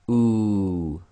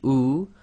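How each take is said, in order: First: The vowel is held for two counts. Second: The vowel is held for one count. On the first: "to two long" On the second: "which is one long"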